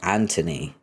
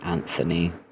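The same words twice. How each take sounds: First: The middle consonant is a plain t sound. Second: The middle consonant is a th sound. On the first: "with a T H, but everyone pronounces it Anthony" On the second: "my grandmother pronounced his name as Anthony"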